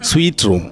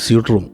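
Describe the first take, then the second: First: The first word sounds like 'sweet'. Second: The first word sounds like 'suit'. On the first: The speaker calls it right. "It should be sweet" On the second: The speaker calls it wrong. "അത് മിക്കവാറും നമ്മൾ പറയുന്നത് സ്യൂട്ട് room എന്ന് പറയും"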